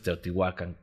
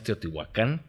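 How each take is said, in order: First: The stress is on the second-to-last syllable. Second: The stress is on the final syllable. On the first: This is the original form of the name. The speaker calls it right. "eran puras palabras graves. Entonces Teotihuacán" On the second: This is the Spanish-adapted form of the name. The speaker calls it wrong. "sé que no es Teotihuacán, porque eso ya se hispanizó"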